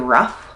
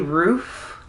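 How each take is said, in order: First: The vowel is short, as in 'rough'. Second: The vowel is a long 'oo' sound. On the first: This is how the speaker does not say it. "I don't say rough" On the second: This is how the speaker says it. "I say roof"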